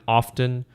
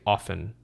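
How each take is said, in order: First: The T sound in the middle is pronounced. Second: The T sound in the middle is silent. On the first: "you should pronounce the T" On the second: "but if you don't"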